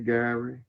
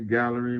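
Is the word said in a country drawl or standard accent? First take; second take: country drawl; standard. First: The word is said in a country drawl. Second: The word is said in a standard accent. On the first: This is how the local country folk say it. "we say gallery" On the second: This is how outsiders expect it said. "we don't say gallery"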